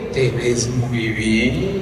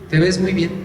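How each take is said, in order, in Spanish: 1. Se dice con un tono lascivo e insinuante. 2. Se dice con un tono sencillo y amistoso.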